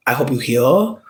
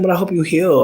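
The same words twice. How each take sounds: First: Said in the usual way. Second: "But I hope you heal" pushed higher with a hit on "But"; pointed emphasis. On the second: Retold or imitated. To the dating-app man, a pointed higher-pitched jab. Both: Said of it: "I really hit him".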